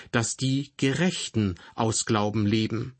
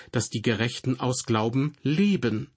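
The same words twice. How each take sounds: First: Gerechten lifted and leaned on, rising; stress on Gerechten. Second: Leben is the word that is hit, said fully as le-ben; stress on leben. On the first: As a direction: put the weight on the word Gerechten. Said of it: "Im Römerbrief liegt die Betonung darauf". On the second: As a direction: land the line firmly on leben. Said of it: "Hier im Hebräerbrief liegt die Betonung darauf". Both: Shown as a demonstration.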